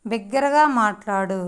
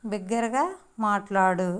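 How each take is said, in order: First: Said in the usual way. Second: బిగ్గరగా rising, a break before మాట్లాడు; word by word. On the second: Shown as a demonstration. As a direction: lift the end of బిగ్గరగా, pause, then మాట్లాడు. Teacher models phrase word by word. (బిగ్గరగా తర్వాత ఆగి మాట్లాడు అనడం)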